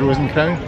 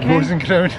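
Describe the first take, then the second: First: The word 'and' is said as a separate word. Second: The word 'and' merges into 'Rosen'. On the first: The speaker calls it right. "people from the U K who can pronounce this correctly" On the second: The speaker calls it wrong. "all we hear is Rosen Crown"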